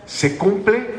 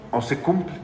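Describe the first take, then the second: First: Preacher poses the first half of the choice, "¿Se cumple" lifted high; rising question on cumple. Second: Said in the usual way. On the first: Shown as a demonstration. Preacher to congregation: "¿Se cumple" as a raised, rising question.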